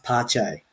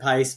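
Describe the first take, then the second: First: The name is said with a Brazilian Portuguese pronunciation. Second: The name is said like the English word pace. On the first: The speaker calls it right. "I think it's actually pronounced Pache, because he's Brazilian" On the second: The speaker calls it wrong. "let's just call him Pace"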